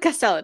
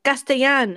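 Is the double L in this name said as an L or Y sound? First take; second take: L sound; Y sound. First: The double L is said as an L sound. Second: The double L is said as a Y sound. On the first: The name is treated as English. "I think we'll just go with Castellan" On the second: The name is treated as Spanish. "Luke was Spanish speaking ... It's supposed to be the Y sound"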